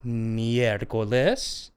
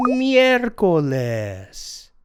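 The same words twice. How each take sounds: First: Miércoles low and slow, rising on les; review prompt. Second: Miércoles drawn out slowly, MYER-co-les; Spanish pronunciation demo. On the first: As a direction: lift the end of a low miércoles. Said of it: "let's go over that again". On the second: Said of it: "Wednesday is pronounced miércoles". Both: Shown as a demonstration.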